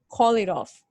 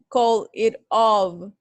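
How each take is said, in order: First: The words are linked into one phrase. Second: The words are said separately, not linked. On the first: The speaker calls it right. "like one phrase" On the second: The speaker calls it wrong. "It's not called it of"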